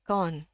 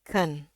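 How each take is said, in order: First: "Kon" with a full o vowel; old mispronunciation. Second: "Ken" with a schwa; schwa pronunciation. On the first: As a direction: say "Kon" with o instead of schwa. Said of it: "Saya dulu selalu bacanya ini". ("Kon" dengan bunyi o penuh) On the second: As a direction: say "Ken" with the e of senang. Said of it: "Jadi pakai e". ("Ken" dengan e pepet) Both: Shown as a demonstration.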